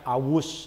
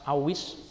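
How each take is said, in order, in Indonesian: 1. Vokal setelah w adalah u. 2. Vokal setelah w adalah i. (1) "Jangan awus" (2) "kasih harokat kasroh"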